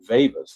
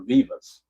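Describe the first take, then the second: First: The name is said with an E vowel sound. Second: The name is said without the E vowel sound.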